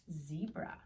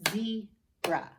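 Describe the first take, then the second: First: Said in the usual way. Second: "Zebra" in two loud, separated beats; split into syllables. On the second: Shown as a demonstration. Teacher clapping out syllables for children, "Zebra" broken in two. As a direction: say "Zebra" as ze, pause, bra. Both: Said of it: "How many syllables?".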